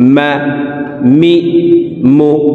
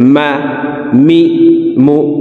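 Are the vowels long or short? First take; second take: short; short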